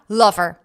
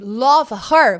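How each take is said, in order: First: The words merge into one word, lover. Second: The two words are said separately.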